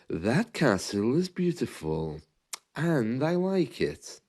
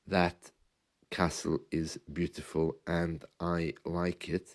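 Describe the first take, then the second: First: The words flow together in smooth phrases. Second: The words come out separately, without grouping. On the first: The speaker calls it right. "group the words together" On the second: The speaker calls it wrong. "instead of saying"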